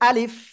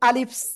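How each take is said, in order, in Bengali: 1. শব্দটি s ধ্বনি ছাড়াই পরিষ্কারভাবে শেষ হয়। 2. শব্দটির শেষে একটি অতিরিক্ত s ধ্বনি যোগ হয়। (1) "বলতে হবে কেমন? আলিফ" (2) "আপনারা বলতেছেন অনেকেই আলিফস, আলিফস। এরকম নয়"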